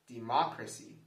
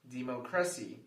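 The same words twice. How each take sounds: First: The stress is on the second syllable. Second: The stress is on the third syllable. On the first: "If we stress the second syllable" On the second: "If we stress the third syllable"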